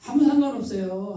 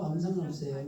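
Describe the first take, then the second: First: Louder, laughing through 아무 상관없어요 with 아무 stressed. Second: Softer, calmer 아무 상관없어요 with 상관없어요 stressed; quiet repeat. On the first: Real, not acted. Preacher laughing off the dialect slip to her listeners. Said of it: "says it twice, laughing". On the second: Shown as a demonstration. Preacher quietly repeating the reassurance to the congregation. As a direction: drop to a softer, settled tone. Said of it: "repeats it quietly".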